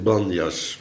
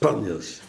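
First: The word begins with a soft b sound. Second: The word begins with a hard p sound. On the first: This is the usual name of the place. "Het heet Banjas" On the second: This is how the local people say it. "die lui daar spreken het met een harde P uit"

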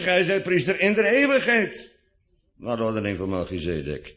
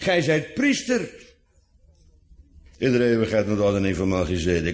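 First: The emphasis falls on in de eeuwigheid. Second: The emphasis falls on the word priester. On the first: He remains a priest forever. "maar met de nadruk op in de eeuwigheid" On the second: He is a priest rather than only a king. "gij zijt priester in plaats van koning"

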